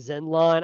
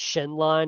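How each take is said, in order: First: The name begins with a z sound. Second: The name begins with an sh sound. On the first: The speaker calls it wrong. "I've been saying Zenlon" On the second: The speaker calls it right. "I'm pretty sure it's Shenlon because it's an X"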